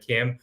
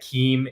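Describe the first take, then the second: First: The vowel is a short 'i' sound. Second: The vowel is a long 'ee' sound. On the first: The speaker calls it right. "it's pronounced Kim as in K I M" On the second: The speaker calls it wrong. "pronouncing it as uh, Keem instead of Kim"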